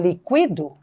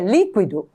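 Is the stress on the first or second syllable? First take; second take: second; first. First: The stress is on the second syllable. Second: The stress is on the first syllable. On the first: It is the verb meaning I liquidate. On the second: It is the noun or adjective meaning liquid.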